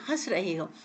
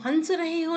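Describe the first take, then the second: First: The vowel is nasalized through nose and mouth. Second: The n is said as a full consonant. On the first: The speaker calls it right. "आप नाक और मुंह दोनों से निकाल रहे हैं" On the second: The speaker calls it wrong. "नहीं कह सकते"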